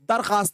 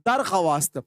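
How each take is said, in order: First: No w sound is heard after the kh. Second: A w sound is heard after the kh. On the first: This is how the word is actually read. "लेकिन हम लोग पढ़ते हैं दरखास्त।" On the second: This is how the word is written. "जैसे हम लोग लिखते हैं दरख्वास्त।"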